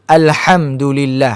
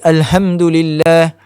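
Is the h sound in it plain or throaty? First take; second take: throaty; plain. First: The h is a strong, raspy breath from the throat. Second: The h is a plain, light breath. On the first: The speaker calls it right. "Ha mesti bunyi ha, ha pedas gitu sikit" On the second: The speaker calls it wrong. "Jangan kita baca"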